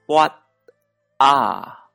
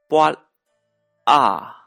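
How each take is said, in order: Both takes have the same delivery.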